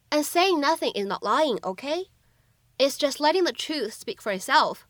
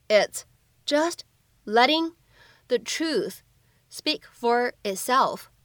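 First: Said in the usual way. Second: Slow, word groups parted by pauses; slow read-through. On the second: Shown as a demonstration. Teacher breaks the film line down for learners, slow and separated. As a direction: read it slowly in small chunks for learners.

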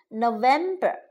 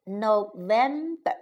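First: Said in the usual way. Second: Teacher breaking "November" into its syllables. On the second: Shown as a demonstration. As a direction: sound out "November" one syllable at a time for a learner. Teacher models month syllable by syllable.

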